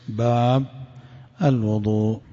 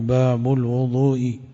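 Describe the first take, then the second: First: The first word stops, with a pause after it. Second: The first word flows on with a vowel ending.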